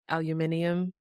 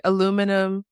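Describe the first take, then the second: First: Aluminium with the British extra syllable, stressed on "min". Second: Aluminum punched on the second syllable, louder; American stress on Aluminum. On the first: Host trying out both national pronunciations, British stress on aluminium. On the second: Host trying out both national pronunciations, American stress on Aluminum. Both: Shown as a demonstration.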